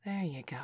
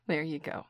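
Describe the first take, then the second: First: Soft whispered praise. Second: Said in the usual way. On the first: Acted. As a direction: whisper it close. Encouraging partner while cooking. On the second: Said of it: "encouraging partner while cooking".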